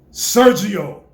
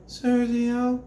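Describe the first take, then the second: First: Very loud Sergio; said with power. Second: High, thin Sergio from the throat; weak throaty try. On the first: Coach showing the boy a strong Sergio, very loud. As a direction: push it out on the breath. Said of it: "Get your breath. Breathe". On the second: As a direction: say it wrong, from the throat. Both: Shown as a demonstration.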